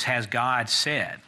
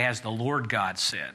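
First: "God" said slowly, standing alone; slow, deliberate question with weight on "God"; stress on GOD. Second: "Lord" picked out as the contrast; stress on LORD. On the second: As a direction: lean on "Lord", then fall away. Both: Shown as a demonstration. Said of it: "He doesn't say".

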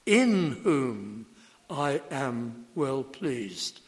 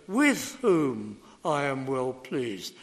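First: Reverent, slow, stress on "in". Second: "With" stressed, read slowly as the wrong wording; slow, pointed read leaning on "With". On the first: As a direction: lean on the word "in" and let the rest slow down. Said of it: "In is correct". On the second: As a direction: hit "With" to show the mistranslation. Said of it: "That's entirely wrong". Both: Shown as a demonstration.

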